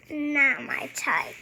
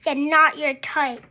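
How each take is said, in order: First: Said in the usual way. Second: Drily mocking, louder; sarcastic echo. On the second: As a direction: echo it back, unconvinced.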